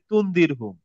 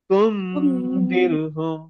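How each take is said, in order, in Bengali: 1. n স্পষ্টভাবে উচ্চারিত হয়, নাকের টান ছাড়া। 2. n অনুনাসিক, আর দুই মাত্রা ধরে রাখা হয়। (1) "আমরা এইভাবে পড়ি যে" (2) "নাকে যাবে, অনেশ্বরের মতো উচ্চারণ হবে... একটু সময় নিব, যেহেতু টু কাউন্ট"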